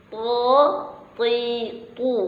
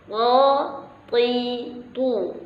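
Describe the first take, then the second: No difference in how they are said.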